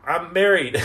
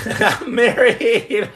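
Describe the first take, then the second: First: Said in the usual way. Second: Drawn out slowly through a laugh. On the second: Real, not acted. Joking to viewers about marriage, laughing.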